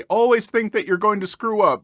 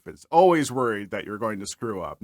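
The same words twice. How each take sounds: First: Louder and higher, ALWAYS punched at the start; upbeat, mock-serious life tip; emphatic advice. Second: Said in the usual way. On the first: Shown as a demonstration. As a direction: preach it, with "Always" hit hard. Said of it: "just be more paranoid like me". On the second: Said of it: "it's a great way to go through life".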